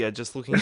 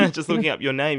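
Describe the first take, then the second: First: Said in the usual way. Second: Laughing through the words. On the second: Real, not acted. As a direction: giggle while saying it. Laughs while repeating phrase.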